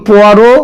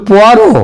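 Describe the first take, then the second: No difference in how they are said.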